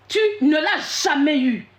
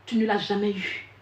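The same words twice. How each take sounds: First: Slow, hammering Tu ne l'as jamais eu, with the weight on ne; stress on ne. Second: Said in the usual way. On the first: Real, not acted. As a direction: drive home ne, word by word. Repeats the accusation to her listener. (accent d'insistance sur « ne », lent et martelé)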